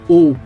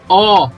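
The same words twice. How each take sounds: First: The O vowel is closed. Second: The O vowel is open. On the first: The speaker calls it right. "eu sempre vou falar O. O som sempre fechado" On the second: The speaker calls it wrong. "Eu nunca vou falar O"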